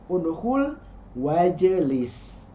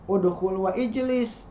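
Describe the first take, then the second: First: The vowel is dropped and the words link. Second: The vowel starting ijlis is clearly pronounced. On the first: The speaker calls it right. "tapi dibacanya" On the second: The speaker calls it wrong. "tidak dibaca"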